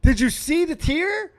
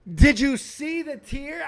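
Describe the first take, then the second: First: High, quick, eager rising question; much higher, louder excited ask. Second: Slowed down, every word leaned on; high, drawn-out insistent rising question; slow emphatic repeat. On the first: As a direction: ask it all worked up. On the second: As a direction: drag it out to drive it home. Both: Real, not acted.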